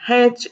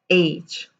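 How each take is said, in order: First: The letter name starts with an h sound. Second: The letter name starts without an h sound. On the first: The speaker calls it wrong. "It is not H" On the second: The speaker calls it right. "No H, no her sound at all. It is H"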